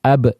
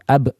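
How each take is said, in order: Both takes have the same delivery.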